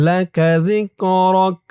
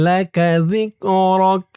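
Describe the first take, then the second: No difference in how they are said.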